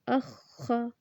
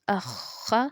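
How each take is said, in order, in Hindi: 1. दोनों अक्षरों के बीच एक छोटा सा ठहराव है। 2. दोनों अक्षर बिना किसी ठहराव के एक साथ बोले जाते हैं। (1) "यहाँ पर जो मैं रुकती हूँ ना ... जमा और ठहराव के साथ पढ़ना" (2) "इसको ऐसे नहीं पढ़ेंगे"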